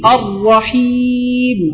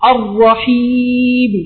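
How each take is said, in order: No difference in how they are said.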